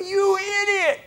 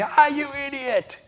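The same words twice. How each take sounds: First: High, drawn-out outraged yell; indignant high-pitched shout; road rage. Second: High, stretched-out cry of annoyance; drawn-out exasperated yell; brief outburst. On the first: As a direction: explode at the driver who cut you off. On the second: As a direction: yelp at the driver, then let it go. Brief outburst, then lets it go. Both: Retold or imitated.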